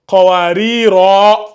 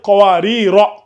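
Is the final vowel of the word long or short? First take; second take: long; short. First: The final vowel is drawn out long. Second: The final vowel is kept short. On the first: The verse ends here with a pause. "quand on va marquer une pause" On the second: The reading runs on without a pause. "comme on ne marque pas de pause ... on ne l'allonge pas"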